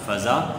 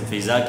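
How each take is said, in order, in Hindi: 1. पहला स्वर 'a' है। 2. पहला स्वर 'i' है। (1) "फ़े के ज़बर के साथ" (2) "फ़िज़ा नहीं है"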